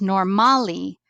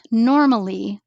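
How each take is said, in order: First: Normally stressed on MA, like nor-MA-lee; stress on second syllable. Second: Said in the usual way. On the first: Shown as a demonstration. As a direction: misplace the stress in normally onto the middle syllable. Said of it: "was pronounced normally".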